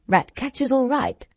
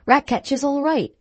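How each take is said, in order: First: Puzzled master's questioning repeat; incredulous echo. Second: Higher-pitched deferential servant statement; reassuring groom. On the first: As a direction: echo it back in disbelief. Master echoes the groom in disbelief. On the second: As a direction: reassure the master respectfully, pitched up. Groom reassures the worried master. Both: Acted.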